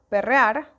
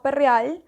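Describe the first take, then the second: First: The final r sounds like an r. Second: The final r sounds like an l. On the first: "cuando debería ser perrear" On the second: "vamos a perrear"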